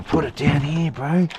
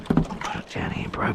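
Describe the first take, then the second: First: Said in the usual way. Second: Whispered under the breath; breathy whisper to a mate. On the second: Real, not acted. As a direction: whisper it to yourself first. Repeats instruction, first whispered.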